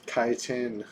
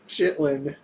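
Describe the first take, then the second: First: The word is said without an L sound. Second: The word is said with an L sound. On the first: The speaker calls it right. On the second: The speaker calls it wrong.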